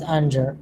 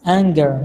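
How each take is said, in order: First: "anger" with a soft j, like "AN-jer"; mispronounced anger. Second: "anger" with a hard g, "ANG-ger"; slow, careful "anger" with g as in "finger"; correct pronunciation. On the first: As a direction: say "anger" with the g wrongly as in "danger". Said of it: "not anger". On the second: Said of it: "it's pronounced as anger". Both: Shown as a demonstration.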